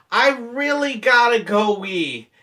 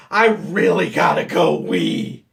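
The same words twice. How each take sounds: First: Slow, higher, louder pleading; insistent play-acted begging; mock urgent plea. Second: Slow, loud, strained pleading; hammed-up desperation, drawn out; mock desperate plea. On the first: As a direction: stretch it out like a hammed-up urgent plea. Feigned urgency to manager, first plea. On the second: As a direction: squeeze it out as if about to burst. Feigned urgency escalating, second plea.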